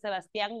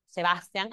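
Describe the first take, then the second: First: The stress is on the last syllable. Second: The stress is on the second-to-last syllable. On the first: This is the name's usual form. "dejó de ser Sebastián" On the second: This is the name's new form from today. "no es aguda, su nombre no lleva tilde, entonces es grave"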